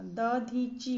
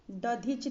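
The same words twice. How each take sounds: First: दधीची ending on long CHEE; correct long ending. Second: दधिच ending on CH; wrong short ending. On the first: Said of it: "होता है". (दधीची के अंत में "ची") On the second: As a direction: say दधिच as "dadhich". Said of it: "नहीं होता". (दधिच के अंत में "च") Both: Shown as a demonstration.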